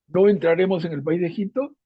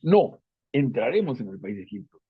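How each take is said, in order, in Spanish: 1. Sigue sin pausa después de no. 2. Hay una pausa justo después de no. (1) "Una cosa es decir" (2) "no es una negación, es una afirmación"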